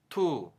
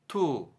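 First: The syllable stays open with the breath flowing. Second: The syllable stays open with the breath flowing.

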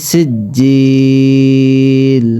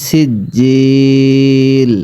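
Both takes have the same delivery.

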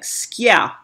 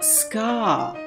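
First: The word has a y sound after k. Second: The word has no y sound after k. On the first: The speaker calls it right. "You pronounce it with a Y" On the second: The speaker calls it wrong. "the British call it ska"

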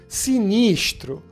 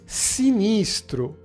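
First: The middle s is a hushing sh sound. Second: The middle s is a plain hissing sound.

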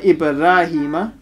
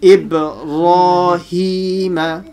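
First: The r is light and empty-mouthed. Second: The r is heavy and full-mouthed. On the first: The speaker calls it wrong. "So not Ibrahima" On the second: The speaker calls it right. "And the ra is full mouth"

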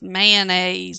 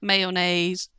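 First: The word has two syllables, with no 'o' sound. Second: The word has three syllables, with an 'o' sound. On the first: "we're going to take that O and toss it right on out. Just mayonnaise" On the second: "not mayonnaise"

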